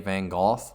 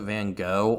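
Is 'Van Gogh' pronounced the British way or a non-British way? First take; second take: British; non-British. First: The name is said the British way. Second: The name is said the non-British way.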